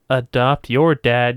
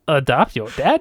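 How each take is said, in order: First: It is said in his normal voice. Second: It is said in a Yoda impression voice.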